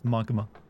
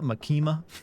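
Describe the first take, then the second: First: The name is said with a Japanese-style pronunciation. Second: The name is said with an American pronunciation. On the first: The speaker calls it right. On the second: The speaker calls it wrong. "I just Americanize it too much. Like that"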